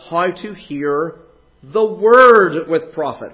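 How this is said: The word word carries the main stress. The focus is on what is listened to.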